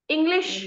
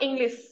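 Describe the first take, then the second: First: The word ends with an sh sound. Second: The word ends with an s sound. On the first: The speaker calls it right. "the words which end with sh" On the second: The speaker calls it wrong.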